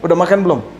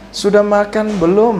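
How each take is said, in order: First: It is spoken bluntly in an Ambonese style. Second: It is spoken softly in a Javanese Solo style. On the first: The speaker is direct and plain-spoken. "Kalau saya nggak begitu" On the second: The speaker is refined and gentle. "Kalau orang Ambon jadi orang Solo gimana ya?"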